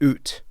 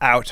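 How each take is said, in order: First: It is said with a Canadian 'oot' vowel. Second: It is said with an American vowel.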